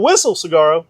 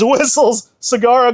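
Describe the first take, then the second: First: The first word ends without an s sound. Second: The first word ends with an s sound. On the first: The speaker calls it wrong. "It's not Whistle Saguaro" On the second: The speaker calls it right. "It is Whistles Saguaro"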